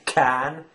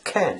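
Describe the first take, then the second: First: The vowel is a plain open a sound. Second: The vowel leans toward an e sound. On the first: The speaker calls it wrong. "She doesn't say can" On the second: The speaker calls it right. "It's it's leaning towards the e e sound rather than a sound"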